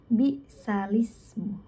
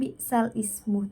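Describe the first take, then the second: First: The glottal stop is dropped and the words join. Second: A glottal stop separates the words before ismu. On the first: The speaker calls it right. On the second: The speaker calls it wrong.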